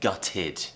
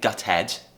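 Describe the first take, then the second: First: The ending is said with an 'id' sound. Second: The ending is said with an 'ed' sound. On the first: The speaker calls it right. "we're pronouncing it as id" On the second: The speaker calls it wrong. "We're not saying gutted"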